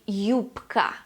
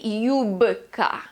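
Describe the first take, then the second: First: The middle consonant is a voiceless p. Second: The middle consonant is a voiced b. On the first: The speaker calls it right. "I say юбка" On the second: The speaker calls it wrong. "I do not say юбка"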